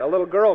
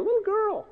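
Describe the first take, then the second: First: Said in the usual way. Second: Very high little voice; tiny girlish squeak. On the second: Acted. Preacher marvelling at Peter's small accuser, squeaky-high.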